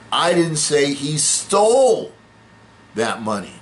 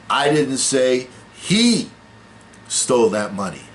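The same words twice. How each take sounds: First: The word 'stole' carries the main stress. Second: The word 'he' carries the main stress. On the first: He got the money some other way. "No, he just borrowed it" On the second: Someone else took the money. "Well, it wasn't him, it was it was somebody else"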